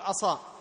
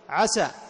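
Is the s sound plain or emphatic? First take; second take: emphatic; plain. First: The s sound is heavy and emphatic. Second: The s sound is light and plain. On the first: It means disobeyed. The speaker calls it wrong. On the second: It expresses hope. The speaker calls it right.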